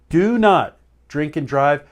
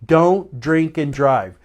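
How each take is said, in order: First: "not" split off from "Do" and hit hard; stress on not. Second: Slow, deliberate repeat of the warning; firm warning. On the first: Host warning viewers again, leaning hard on "not". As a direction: punch the "not" in "Do not". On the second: Host urging viewers before the holiday, slow and firm. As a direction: lay each word down firmly. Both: Shown as a demonstration. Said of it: "I don't wanna have to say it over and over again".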